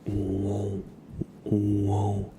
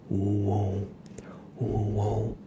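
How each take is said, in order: Both takes have the same delivery.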